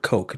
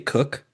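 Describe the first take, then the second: First: The name rhymes with joke. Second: The name rhymes with book. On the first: The speaker calls it wrong. "I say Edward Coke" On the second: The speaker calls it right. "Did you say Cook?"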